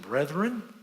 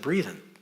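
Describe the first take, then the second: First: The first vowel is short, as in 'breath'. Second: The first vowel is long, as in 'breathe'. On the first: The speaker calls it right. "every time it said brethren" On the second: The speaker calls it wrong. "I thought it said breathen"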